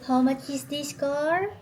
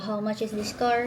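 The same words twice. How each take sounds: First: It is said in a small, high, mocking voice. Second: It is said in an ordinary speaking voice. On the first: Someone else is mimicking and teasing the speaker. "Yung ganun, yung ginagaya niya. ... niliitan niya rin yung boses niya" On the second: The speaker is asking the price sincerely. "sabi ko, how much is this car"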